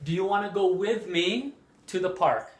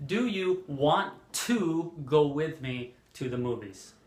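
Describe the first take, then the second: First: WANNA run together, a little higher; flowing question with "wanna" as one word; casual "wanna" example; reduced spoken form. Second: WANT TO pulled apart as two words; clear, separate "to" after "want"; deliberate, unreduced "want to"; full careful form. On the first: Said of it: "We often hear this instead of". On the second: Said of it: "instead of". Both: Shown as a demonstration.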